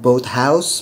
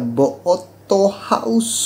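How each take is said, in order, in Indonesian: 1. Diucapkan dengan pelafalan bahasa Inggris yang biasa. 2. Diucapkan dengan tambahan vokal ala Jepang. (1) "tidak bisa menyebutkan boathouse" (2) "mereka biasanya nyebutnya Boathouse"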